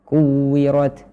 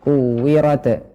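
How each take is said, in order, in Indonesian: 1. Huruf t di akhir diakhiri dengan hembusan napas yang ringan. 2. Huruf t di akhir diakhiri dengan lepasan yang memantul. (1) "Tapi kuwirat" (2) "Bukan kuwirat"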